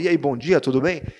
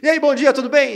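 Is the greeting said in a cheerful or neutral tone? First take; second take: neutral; cheerful. First: The greeting sounds neutral and not cheerful. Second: The greeting sounds cheerful and upbeat.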